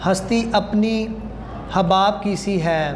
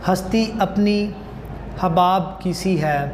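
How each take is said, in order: Both takes have the same delivery.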